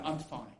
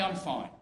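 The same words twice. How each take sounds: First: Much lower, much softer; a lightly voiced automatic reply; masking reply. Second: Hide it behind a quick I'm fine; a hint of a forced answer; masking reply. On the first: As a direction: mumble it like a mask slipping on. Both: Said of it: "or I can say".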